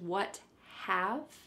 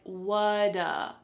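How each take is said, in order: First: Both words are said fully and separately. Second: The words blend into one short word. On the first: "This is what have" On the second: "it sounds like whata"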